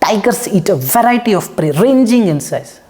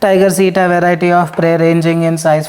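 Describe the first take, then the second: First: It is read with heavy stresses on many words. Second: It is read plainly, with natural even delivery. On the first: The speaker calls it wrong. "Speak with stresses" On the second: The speaker calls it right. "very simple"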